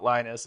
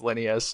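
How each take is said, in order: First: The name is said like Linus. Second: The name is said like Linneus. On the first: The speaker calls it wrong. "not Linus" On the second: The speaker calls it right. "it's Linneus"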